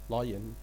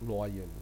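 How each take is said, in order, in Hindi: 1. पहला अक्षर 'lie' जैसा सुनाई देता है। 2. पहला अक्षर 'loy' जैसा सुनाई देता है। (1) "Actual pronunciation skill lion" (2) "not लॉयन"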